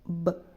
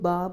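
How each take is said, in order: First: The b sound is short, kept inside the mouth. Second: The b sound is followed by an 'ah' vowel. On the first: The speaker calls it right. "मुंह के अंदर ही आवाज़ रहेगी" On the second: The speaker calls it wrong. "बहुत से लोग बा बोलते हैं, बा नहीं बोलना"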